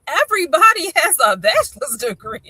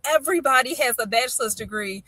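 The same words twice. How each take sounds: First: High, loud, disbelieving repeat; incredulous echo. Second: Said in the usual way. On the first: Retold or imitated. Mother challenging her son's claim, incredulous echo. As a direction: throw the claim back as absurd.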